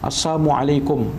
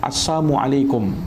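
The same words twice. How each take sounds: The two takes are said the same way.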